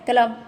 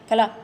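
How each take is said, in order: The two takes are said the same way.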